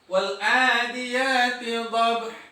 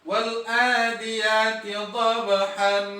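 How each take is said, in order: First: The last word ends abruptly on an h sound. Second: The last word ends with an n sound. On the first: "huruf H-nya terkadang dimatikan" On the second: "tetap dengan membuatnya fathatain"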